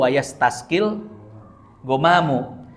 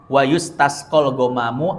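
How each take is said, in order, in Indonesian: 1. Kata kerjanya dibaca dengan vokal 'a': yastasqi. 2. Kata kerjanya dibaca dengan vokal 'u': yustasqa.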